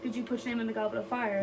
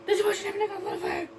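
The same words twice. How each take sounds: First: It is said calmly and quietly. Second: It is yelled loudly and angrily.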